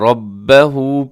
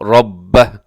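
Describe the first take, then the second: First: The word ends with a long u vowel. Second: The word ends on a bare h sound. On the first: The reader continues without stopping. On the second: The reader stops at this word.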